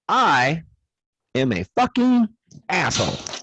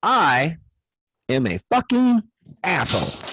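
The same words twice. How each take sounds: First: It is said in a very happy voice. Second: The same.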